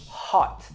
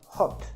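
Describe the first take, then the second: First: The vowel is made low in the mouth. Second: The vowel is made higher in the mouth. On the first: The speaker calls it right. "pronounce it from down here" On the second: The speaker calls it wrong. "and not"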